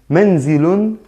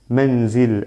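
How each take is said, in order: First: The word ends with an added '-un' sound. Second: The word ends on a bare 'l' sound. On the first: "así se pronuncia doble damma" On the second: "Esta lam la pronuncio como si lleva un sukun"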